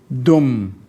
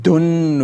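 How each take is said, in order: First: The word ends with an m sound. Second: The word ends with a clear n sound. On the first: The speaker calls it right. "consider it as Dal Dhamma alone, one Dhamma, and join to the meme" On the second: The speaker calls it wrong. "we don't say Dun, we don't bring in the end song"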